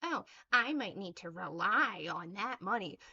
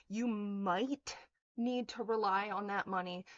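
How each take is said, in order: First: Sneering mimicry of a critic's excuse; mocking quote. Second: Said in the usual way. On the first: Ranting at a critic, she parrots the excuse in a mocking voice. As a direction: throw her excuse back in a put-on voice.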